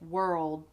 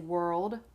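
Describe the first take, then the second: First: The final D sound is cut off. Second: The final D sound is fully released. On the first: "I can say world" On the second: "I don't have to say world"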